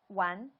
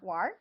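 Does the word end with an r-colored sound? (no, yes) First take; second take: no; yes. First: The word ends without any r-colored sound. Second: The word ends with an r-colored sound. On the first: This is the standard way of saying it. "standard way to say it without the R" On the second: This is the northern, Beijing way of saying it. "northern 儿化音"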